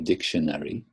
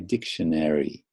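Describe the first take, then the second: First: It is said with a British English pronunciation. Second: It is said with an American English pronunciation. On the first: "U K people say dictionary" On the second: "American people apparently say dictionary"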